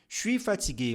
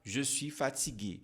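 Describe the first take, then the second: First: The phrase is said quickly and casually. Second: The phrase is said slowly and fully. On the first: This is an informal way used among friends and family. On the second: This is the standard way to say it.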